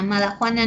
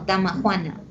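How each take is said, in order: First: The word begins with an m sound. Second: The word begins with a d sound. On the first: The speaker calls it wrong. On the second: The speaker calls it right.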